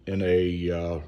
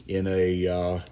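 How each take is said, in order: Both takes have the same delivery.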